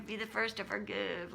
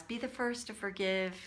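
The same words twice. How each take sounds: First: Soft, sing-song mockery of a spiritual rule; mock the saintly advice, hushed; mocking the pious rule. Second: Said in the usual way. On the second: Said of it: "spiritual bypass".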